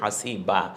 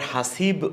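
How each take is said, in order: First: The word ends with a lengthened 'a'. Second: The word ends on a bare consonant. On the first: The speaker calls it right. "বলছি হাসিবা" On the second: The speaker calls it wrong. "আবার হাসিব ও বলছি না"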